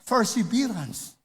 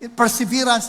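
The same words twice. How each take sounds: First: The word begins with an F sound. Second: The word begins with a P sound. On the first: "Ano ngayon kung yung P ay F" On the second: "hindi makapag-pronounce ng tama ng perseverance"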